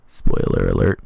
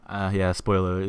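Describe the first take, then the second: First: Deep, loud booming spoiler warning; announcer warning. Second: Said in the usual way. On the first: Acted. Warning viewers before a major spoiler, deep booming announcer. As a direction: drop into a huge trailer voice for the alert.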